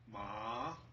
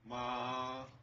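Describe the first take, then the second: First: The pitch rises from middle to high. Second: The pitch stays high and level. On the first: It means numb. "rising tone" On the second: It means mother. "the high flat tone will be flat"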